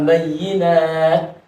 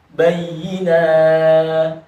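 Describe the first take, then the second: First: Bayyinat, slowly pulled apart; wrong way. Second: Bayyinat said in one go; right way. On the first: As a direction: bayyinat with nat cut off. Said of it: "Nah, itu salah". (bayyinat salah, dipisah pelan) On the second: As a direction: bayyinat with nat straight after. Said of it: "Bukan bayyinat". (bayyinat langsung tanpa jeda) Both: Shown as a demonstration.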